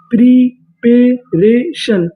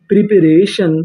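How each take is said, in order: First: Very slow syllables. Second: Said in the usual way. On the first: Shown as a demonstration. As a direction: draw out preparation syllable by syllable, very slowly.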